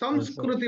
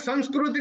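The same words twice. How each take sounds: First: The nasal before the s sounds like m. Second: The nasal before the s sounds like n. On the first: It is said this way in the south. "संस्कृति बोलते हैं" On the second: It is not said this way in the south. "वहां पे संस्कृति नहीं बोलते"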